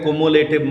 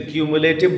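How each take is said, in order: First: The word begins with a plain 'koo' sound. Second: The word begins with a 'kyoo' sound. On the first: The speaker calls it wrong. "कुमुलेटिव मत बोलिएगा" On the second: The speaker calls it right. "इसे क्यूमुलेटिव बोलते हैं"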